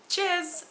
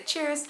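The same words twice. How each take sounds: First: High "Cheers" with the r dropped, badly done; badly faked British. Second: "Cheers" higher, the final r dropped. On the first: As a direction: try "Cheers" British-style, no r. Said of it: "That was bad". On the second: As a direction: say "Cheers" as "chiaz", British. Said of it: "you have to get rid of the R". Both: Shown as a demonstration.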